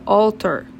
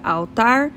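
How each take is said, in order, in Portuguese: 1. A palavra é pronunciada do jeito inglês. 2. A palavra é pronunciada do jeito português. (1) "em inglês seria altar" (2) "Pra gente seria altar"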